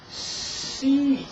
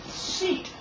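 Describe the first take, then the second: First: The word is said slowly, sounds stretched out. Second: The word is said quickly as one unit.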